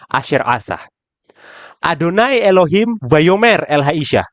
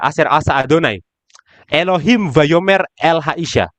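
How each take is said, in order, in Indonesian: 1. Ada jeda setelah kata asa. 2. Ada jeda setelah kata Adonai. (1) "Kalau yang kedua, Adonai Elohim yang Amar El Haisha" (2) "Yang berbicara sekarang jadi Elohim, bukan Hanahas lagi"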